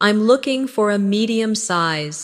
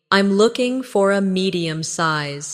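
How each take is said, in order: First: Natural conversational answer; more natural. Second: Slightly slower, careful model sentence; slow repeat. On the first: Teacher models answering a shop assistant, more naturally. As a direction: say it as you would in a shop. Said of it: "again more naturally". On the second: Teacher models answering a shop assistant, slightly slower. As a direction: take a little more time over it. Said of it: "Say it again slowly". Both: Shown as a demonstration.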